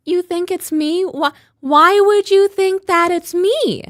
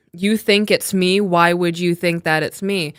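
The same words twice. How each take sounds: First: Much higher, slower, shocked rising pitch; high incredulous imitation. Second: Said in the usual way. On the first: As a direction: mimic her high, disbelieving inflection. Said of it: "That's exactly how she says it, like, influx up". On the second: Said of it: "I read it in the way that she said it".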